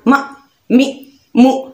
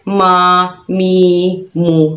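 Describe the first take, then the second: First: Each syllable is pushed out with a sharp jolt. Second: Each syllable is stretched out long. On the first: "झटका नहीं देना मा मी मु ऐसे नहीं पढ़ना" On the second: "ना ही लंबा करना है"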